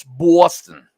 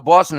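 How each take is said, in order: First: "Boston" drawn out with a heavy vowel; local "Boston". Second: "Boston" with a rounded "aw"; Pennsylvania "Boston". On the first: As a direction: stretch "Boston" slowly, East Coast style. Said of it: "You go up to Boston". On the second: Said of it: "Pennsylvania is gonna say Boston". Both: Shown as a demonstration.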